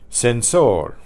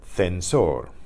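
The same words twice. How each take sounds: First: The c is pronounced like an s. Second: The c is pronounced like th in thin.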